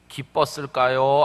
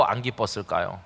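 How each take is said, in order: First: Said in the usual way. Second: 안 set apart and lower, the rest dropping; stress on 안. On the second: Shown as a demonstration. Preacher asking the congregation, stressing 안. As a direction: lean on 안 in 안 기뻤을까요.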